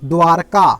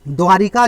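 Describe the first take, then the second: First: A short 'a' vowel follows 'dwar' in the word. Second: An 'i' vowel follows 'dwar' in the word. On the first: The speaker calls it right. "हमारा सही शब्द क्या है" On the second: The speaker calls it wrong. "द्वारिका लिखा है"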